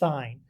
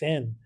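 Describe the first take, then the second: First: The vowel is long, as in line. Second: The vowel is short, as in pin. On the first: The speaker calls it right. "you say it like if there's an E right there. So it's sine" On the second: The speaker calls it wrong. "why are you pronouncing it sine? That's sin"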